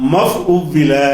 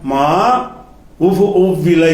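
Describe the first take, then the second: First: The 'ma' merges into the verb's first syllable. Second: The 'ma' is a separate syllable before the verb. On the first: "நம்ம எப்படி சொல்லணும்னு கேட்டா" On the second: "என்று வரணும்"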